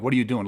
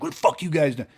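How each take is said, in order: First: Lightly voiced puzzled question; confused. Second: Mock aggressive challenge, pitched up; posturing. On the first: Husband asking guys near his car, mildly confused. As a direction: ask it honestly, genuinely baffled. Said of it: "as in a confused way". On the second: Man at his car mocking a posturing challenge, mock aggressive. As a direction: puff up and throw it at them like a threat. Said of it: "He didn't say it like".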